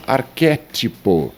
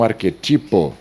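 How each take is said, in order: First: Arquétipo com a tônica no QUÉ; pronúncia correta. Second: Arquetipo com a tônica errada no TI; silabada. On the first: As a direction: diga arquétipo acentuando "qué", e aberto. (arquétipo como proparoxítona, QUÉ forte) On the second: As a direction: diga arquetipo acentuando "ti", a penúltima. (arquetipo como paroxítona, TI forte) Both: Shown as a demonstration. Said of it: "e não arquetipo".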